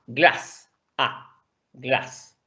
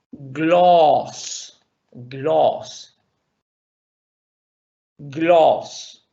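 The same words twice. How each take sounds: First: Glass with a short clipped A sound; short vowel demo. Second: Gloss with a long O between A and O; long vowel demo. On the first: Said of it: "la vocal corta es una más como A". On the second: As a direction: hold the O in gloss long and round. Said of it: "¿y cómo diríamos eso?". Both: Shown as a demonstration.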